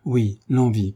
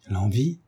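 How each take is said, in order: First: Falling, assured answer; matter-of-fact insistence; firm confirmation. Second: Restrained astonished question, rising at the end; a touch of shocked surprise; astonished cry. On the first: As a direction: confirm it without hesitation. Son confirms what astonished his mother. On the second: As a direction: ask it in mild disbelief. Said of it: "s'écria Marie Bastien". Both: A narrator's reading.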